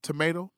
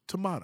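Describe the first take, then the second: First: "Tomato" with a long AY in the middle; American "tomato". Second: "tomato" with a broad AH in the middle; British-style "tomato". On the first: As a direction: say "Tomato" as tuh-MAY-toh. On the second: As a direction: say "tomato" as tuh-MAH-toh. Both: Shown as a demonstration. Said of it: "Tomato, tomato".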